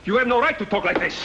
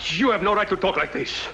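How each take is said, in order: First: Higher and hotter, leaning on right; angry repeat. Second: Firm, offended objection; indignant protest. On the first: Colonel repeating his objection to Barrero, angrier. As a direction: throw the accusation back at him. Heated quarrel over the letter. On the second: Colonel objecting to Barrero's accusation, indignant. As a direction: push back hard at the insult. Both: Acted.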